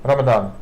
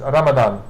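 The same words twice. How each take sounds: The two takes are said the same way.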